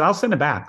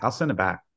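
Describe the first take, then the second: First: A quick, higher, louder promise; eager promise. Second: Said in the usual way. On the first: Retold or imitated. Friend on the phone promising to return the DVD, eager. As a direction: push the word send, keen to please. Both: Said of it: "He said".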